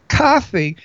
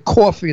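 First: It is said with a Los Angeles accent. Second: It is said with a New York accent.

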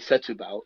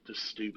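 First: A full vowel is heard after the first S. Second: The first vowel is dropped, giving 'Stubal'. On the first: The speaker calls it wrong. "it's not Moscatel de Setúbal" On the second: The speaker calls it right. "it's Muscatel Stubal"

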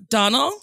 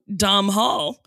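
First: No h sound is heard in the middle. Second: An h sound is heard in the middle. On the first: The speaker calls it right. "So it's Donald" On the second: The speaker calls it wrong. "I call him Dom Hall, which, and now I'm looking at it, very stupid. I switched the H and the N"

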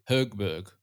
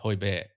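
First: A G sound is heard at the end. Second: No G sound is heard at the end. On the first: The speaker calls it wrong. "a lot of players say Högberg or something like that" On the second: The speaker calls it right. "the G at the end is silent. You don't say that G"

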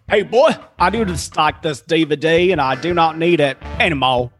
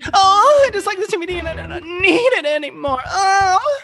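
First: It is said in a Southern American accent. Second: It is said in an adult-film, sultry manner.

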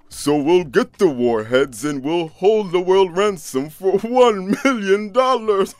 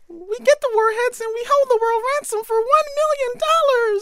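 First: It is said in a deep Santa Claus voice. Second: It is said in a high Minnie Mouse voice.

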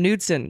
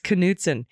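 First: The initial K sound is silent. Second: The initial K sound is pronounced. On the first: The speaker calls it wrong. "we were doing the silent K" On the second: The speaker calls it right. "Got to pronounce the K"

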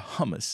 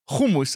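First: The word is said in an American way. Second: The word is said in a non-American way.

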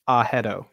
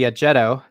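First: The middle consonant is an H sound. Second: The middle consonant is a J sound. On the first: This is the original Filipino form of the name. The speaker calls it right. "the A sound is ah. There's no J sound. And so the correct way is like" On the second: This is the anglicized form of the name. The speaker calls it wrong. "my name got anglicized on the way over, which would be"

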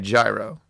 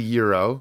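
First: The word begins with a j sound. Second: The word begins with a y sound. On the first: This is how most people in America say it. "the majority of human beings in America say gyro" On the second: This is the supposedly correct pronunciation. "How it's probably supposed to be pronounced is probably Euro"

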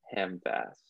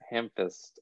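First: The second syllable sounds like 'fast'. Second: The second syllable sounds like 'fist'. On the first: The speaker calls it wrong. "I just can't imagine Tolkien saying ham fast" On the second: The speaker calls it right. "I think Hamfist"

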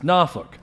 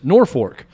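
First: Norfolk is pronounced the way Virginians say it. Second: Norfolk is pronounced the way Nebraskans say it. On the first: This is how the city in Virginia is said. "And there, it's Norfolk" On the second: This is how the town in Nebraska is said. "in Nebraska, Norfolk is Norfolk"

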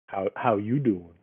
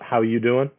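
First: It is said imitating the Friends character's voice. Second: It is said in a plain, ordinary voice.

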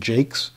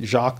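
First: The name is pronounced the American way. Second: The name is pronounced the French way. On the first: "Because we've Americanized everything" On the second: "Is it French ancestry and French pronunciation?"

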